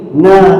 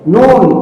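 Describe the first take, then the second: First: The letter is read as a short na. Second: The letter is read as full nun. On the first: The speaker calls it wrong. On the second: The speaker calls it right.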